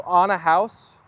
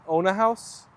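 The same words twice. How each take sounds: First: "on" with an open ah, drawn out; Irish "on" for own. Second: "own" with a round oh; American "own". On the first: Streamer testing the Irish way on chat, open "on". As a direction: say "on a house" for own a house. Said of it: "In Ireland, we say". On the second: Streamer contrasting with the Irish way, long-oh "own". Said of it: "you say own". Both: Shown as a demonstration.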